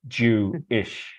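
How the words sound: The word is split with a break before ish.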